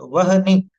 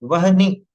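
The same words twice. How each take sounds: The two takes are said the same way.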